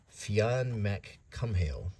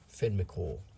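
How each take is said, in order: First: The surname does not end in a 'cool' sound. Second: The surname ends in a 'cool' sound. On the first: The speaker calls it wrong. "I'm probably butchering the pronunciation" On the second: The speaker calls it right. "So that's how we should say it"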